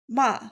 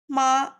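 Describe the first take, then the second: First: The pitch falls sharply from high to low. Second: The pitch stays high and level. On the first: "the last one is falling" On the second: "The first is high"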